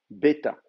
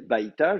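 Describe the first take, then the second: First: The first syllable has a single vowel e. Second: The first syllable has the diphthong ai. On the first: "je pourrais dire bêta" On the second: "Au lieu de dire baïta"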